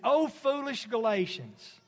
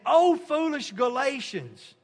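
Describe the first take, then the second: First: It is said at a normal, quiet volume. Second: It is hollered loudly and angrily.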